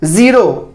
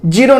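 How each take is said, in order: First: ज़ीरो starting with buzzing Z; correct Z start. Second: ज़ीरो starting with J, "jeero"; wrong J start. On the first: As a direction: model ज़ीरो as "zero" with Z. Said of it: "जा का ध्वनि आएगा". (ज़ीरो में ज़ की साफ़ ध्वनि) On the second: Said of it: "ज़ीरो नहीं". (ज़ीरो को ज से, गलत उच्चारण) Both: Shown as a demonstration.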